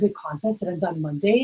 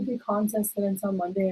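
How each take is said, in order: First: The voice sounds lively and enthusiastic. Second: The voice sounds flat and unenthusiastic. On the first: The speaker calls it right. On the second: The speaker calls it wrong.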